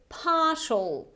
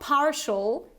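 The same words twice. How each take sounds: First: It is said with no R sound. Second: It is said with an R sound. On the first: "this is the British variety, so I don't pronounce this R sound" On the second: "It's not partial, that would be American"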